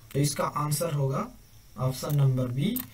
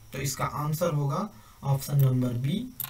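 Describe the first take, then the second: The two takes are said the same way.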